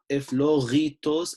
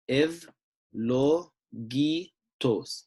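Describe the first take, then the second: First: The middle consonant is a throaty gh sound. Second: The middle consonant is a hard g sound. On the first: The speaker calls it wrong. "not a gha" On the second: The speaker calls it right. "this is going to be a G"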